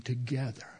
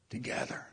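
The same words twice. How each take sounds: First: Said in the usual way. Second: Whisper. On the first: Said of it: "Together. (whispered repeat)". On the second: Shown as a demonstration. Preacher to congregation, whispering the word. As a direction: repeat the word in a soft whisper. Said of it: "whispered repeat".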